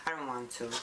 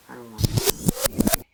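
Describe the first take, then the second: First: Said in the usual way. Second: "I don't want to" wailed much louder and slow; whiny wail. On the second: Pretend. Putting stuff away, loud slow mock whine. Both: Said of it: "I gotta put all this stuff away".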